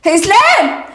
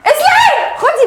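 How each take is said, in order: First: Loud call across the house. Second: Much higher, loud yell of his name; shrieking call. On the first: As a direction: call him in from the other room. (نداء عالٍ على اسلام) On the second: (صرخة عالية جدًا باسمه) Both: Acted. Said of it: "انت بتزعقي ليه؟".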